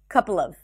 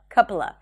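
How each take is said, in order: First: The v sound at the end is pronounced. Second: The v sound at the end is dropped. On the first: "So I'm connecting it to the previous word" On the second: "you can even drop the v sound and just say couple of"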